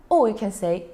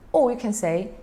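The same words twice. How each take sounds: The two takes are said the same way.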